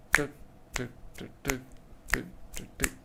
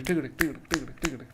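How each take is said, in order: First: Soft unvoiced tick tick; quiet, evenly spaced ticks; trot rhythm. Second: Quick tick-a-tick gallop; fast, driving hoofbeat chant; gallop rhythm. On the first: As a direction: tap out an even trot. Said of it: "versus a trot would be". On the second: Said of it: "So a gallop would be". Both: Shown as a demonstration.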